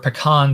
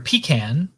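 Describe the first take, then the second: First: It is said with a Northern US pronunciation. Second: It is said with a Southern US pronunciation. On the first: "tends to be west and north" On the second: "in the south of the United States"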